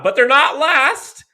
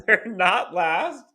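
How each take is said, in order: First: Excited. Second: Laughing. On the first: First take, shouted in joy. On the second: Repeats the line, laughing. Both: Real, not acted.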